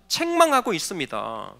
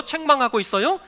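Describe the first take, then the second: First: 책망하고 있습니다 low, falling, as a settled fact; low concluding statement on 책망하고 있습니다; declarative answer. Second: 책망하고 있어요 with a rising question ending; rising either-or question on 책망하고 있어요. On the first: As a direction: state 책망하고 있습니다 with a lowered, final fall. Answers his own question. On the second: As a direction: ask 책망하고 있어요, lifting the last syllable. Asks congregation to choose. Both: Real, not acted.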